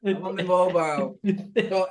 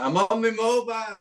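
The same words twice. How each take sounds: First: Lighter teasing echo; a hint of mimicry, higher; mimicking Gaz. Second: Lightly mimicking a friend; high teasing echo of his words; mimicking Gaz. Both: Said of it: "that was funny".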